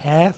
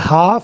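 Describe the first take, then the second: First: The vowel is a flat 'a' like 'cat'. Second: The vowel is an open, back 'ah' sound. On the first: This is the American way. "ये है American में" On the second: This is the British way. "ये आप बोलते हैं British में"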